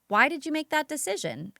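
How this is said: The question sounds neutral and genuinely interested. The asker genuinely wants to understand. The speaker calls it right. "in a neutral, interested way"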